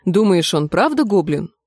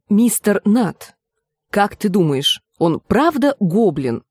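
First: Said in the usual way. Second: Slow, deliberate repeated question; measured, drawn-out patience; very patient. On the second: A narrator's reading. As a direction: spell it out patiently for a slow friend. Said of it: "Как можно терпеливее повторила Гленда".

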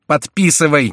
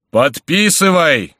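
First: Raised, loud, quicker impatient order; impatient cry. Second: High, loud, slowly drawn-out order; thunderous shout. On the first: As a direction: snap out the command impatiently. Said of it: "нетерпеливо вскричали Майен и герцогиня". (нетерпеливый окрик) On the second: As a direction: bellow the command, stretching it out. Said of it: "кричал Горанфло громовым голосом". (громовым голосом) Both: A narrator's reading.

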